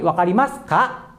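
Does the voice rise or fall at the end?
rise. The voice rises at the end.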